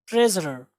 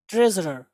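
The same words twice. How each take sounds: The two takes are said the same way.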